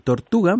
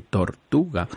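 First: Said in the usual way. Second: Tortuga said tor-TU-ga, weight on TU; stress on the penultimate syllable. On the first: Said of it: "Se dice tortuga". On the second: Shown as a demonstration. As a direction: lean on the TU of tortuga, falling at the end. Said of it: "van acentuadas en la penúltima sílaba".

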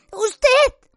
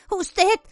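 First: Usted much higher and louder; usted flung out as a cry; shrill accusation. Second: Higher, choked first usted; usted said high but held back; stunned accusation. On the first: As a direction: Hermione exploding at Lupin. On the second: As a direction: Hermione starting to accuse Lupin. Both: A narrator's reading. Hermione accusing Lupin.

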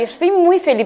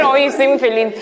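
First: "Estoy muy feliz" said through a very small mouth; tiny mouth. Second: "hoy estoy muy feliz" said honestly and openly; mean every word of "hoy estoy muy feliz". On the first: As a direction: squeeze "Estoy muy feliz" out with lips almost shut. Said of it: "así con la boca muy chiquitita". (con la boca muy chiquitita) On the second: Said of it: "A ver, honesto". (honesto y abierto) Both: Shown as a demonstration.

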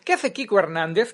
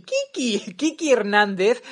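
First: Said in the usual way. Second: "Kiki Hernández" said with a clear final i in "Kiki"; Kiki instead of Kiko. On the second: Shown as a demonstration. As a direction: say "Kiki", ending on i not o. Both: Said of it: "He dicho Kiki".

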